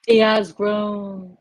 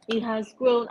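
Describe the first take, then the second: First: Slow emphatic. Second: Said in the usual way. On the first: Shown as a demonstration.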